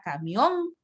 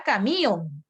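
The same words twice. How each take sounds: First: Said in the usual way. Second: "camión" said slowly as ca-mí-on, three syllables with the i stressed; "camión" drawn out with the weak vowel stressed; stress moved to the i. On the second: Shown as a demonstration. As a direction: break "camión" into a hiatus, leaning on the i. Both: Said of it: "Si la tilde estuviera en la débil".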